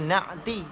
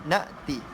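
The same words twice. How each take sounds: First: The middle consonant is a deep throaty 'ain' sound. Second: The middle consonant is a light glottal stop. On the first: The speaker calls it wrong. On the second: The speaker calls it right.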